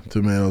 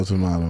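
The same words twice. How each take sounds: First: Tomato with a long "ay" in the middle; first pronunciation. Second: Tomato with an open "ah" in the middle; other pronunciation. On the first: Guest echoing the host's saying, tomato as tuh-MAY-toh. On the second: Guest echoing the host's saying, tomato as tuh-MAH-toh. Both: Shown as a demonstration. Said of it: "everyone says it differently".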